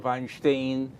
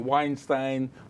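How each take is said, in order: First: The name is pronounced the Russian way. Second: The name is pronounced the English way. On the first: "the Russians say Weinstein" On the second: "We would say Weinstein"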